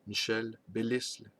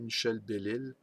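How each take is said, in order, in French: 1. Le nom de famille se prononce avec un son s. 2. Le nom de famille se prononce sans son s. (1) "On prononce le L, le S" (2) "autrefois on appelait"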